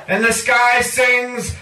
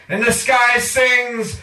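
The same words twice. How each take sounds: The two takes are said the same way.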